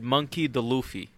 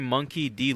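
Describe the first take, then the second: First: The middle initial is said as a short duh. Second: The middle initial is said as the letter dee. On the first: The speaker calls it wrong. "he said Monkey the Luffy. Like he was fucking Italian" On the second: The speaker calls it right. "instead of saying Monkey D"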